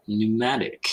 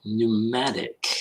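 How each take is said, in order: First: Said in the usual way. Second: "Pneumatic" drawn out slowly, each syllable separate; slow careful word. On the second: Shown as a demonstration. Host slowly sounding out a word his cohost just read. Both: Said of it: "looking up pneumatic pedals".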